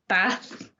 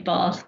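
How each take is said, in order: First: It is said in a northern English accent. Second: It is said in a London accent. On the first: "people up north say Bath" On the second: "because I'm from London, it'll be Bath"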